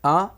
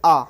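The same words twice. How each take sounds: First: आ through mouth and nose together; nasalised आ. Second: आ through the mouth only; pure oral आ, not nasalised. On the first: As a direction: let आ resonate in the nose too. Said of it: "मुख और नाक दोनों की सहायता से". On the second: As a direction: say आ with no nasal sound. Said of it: "इसका उच्चारण सिर्फ मुख से किया जाता है". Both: Shown as a demonstration.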